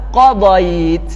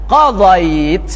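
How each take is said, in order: The two takes are said the same way.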